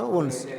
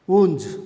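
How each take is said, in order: First: "వూండ్స్" ending in a hissed, voiceless s; correct German pronunciation. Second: "వూంజ్" ending in a buzzed z sound; mistaken local pronunciation. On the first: Teacher applies the final-s rule, voiceless s ending. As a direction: keep the final s of "వూండ్స్" unvoiced like "సా". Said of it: "సా సౌండే పలుకుతుందిమా". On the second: Teacher shows most people's own pronunciation, voiced ending. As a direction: voice the final s of "వూంజ్" like z. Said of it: "ఇది మన pronunciation మా". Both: Shown as a demonstration.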